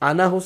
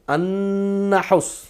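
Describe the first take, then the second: First: The n sound is short and single. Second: The n sound is held long and doubled. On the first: The speaker calls it wrong. "अनहुस नहीं है" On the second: The speaker calls it right.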